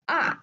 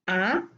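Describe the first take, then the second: First: The pitch drops sharply from high. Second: The pitch rises from middle to high. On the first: "fourth one, the falling tone" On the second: "Second one, rising tone"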